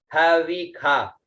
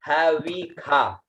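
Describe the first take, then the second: First: हविखा repeated slowly, clear ख; slow pronunciation. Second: हविखा said slowly, ख sound clear; drawn-out हविखा with kha; slow pronunciation. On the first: Teacher repeats हविखा slowly for students. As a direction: stretch हविखा evenly. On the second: Teacher models हविखा pronounced with kha. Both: Shown as a demonstration. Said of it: "तो इसका उच्चारण हुआ".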